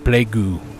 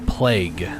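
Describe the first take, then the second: First: Korean-style, with an extra vowel after the g. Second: Plain English, ending on the g sound. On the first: "They say plaegu" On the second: "Koreans don't say plague"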